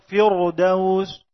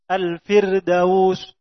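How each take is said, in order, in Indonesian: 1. Bunyi r-nya tebal dan berat. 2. Bunyi r-nya tipis dan ringan. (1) "tidak dibaca ... firdaus" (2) "ditarqiq menjadi ra yang muraqqaq"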